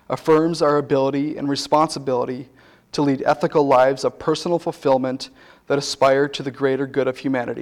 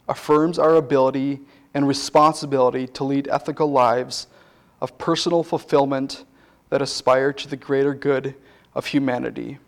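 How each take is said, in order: First: It is said at a faster pace. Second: It is said at a slower pace.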